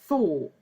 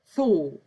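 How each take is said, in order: The two takes are said the same way.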